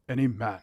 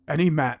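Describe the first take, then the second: First: It is said in a put-on deep British voice. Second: It is said in the speaker's own normal voice. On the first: "I'm gonna try it with him. How does he talk?" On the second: "So I could do it my way probably"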